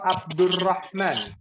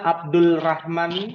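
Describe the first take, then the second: First: The l merges into a doubled r. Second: The l is pronounced before the r. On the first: The speaker calls it right. "Yang kedua, sahih ya" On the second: The speaker calls it wrong. "Abdul Rahman itu eh, pengucapan orang Indonesia ya. Ternyata salah"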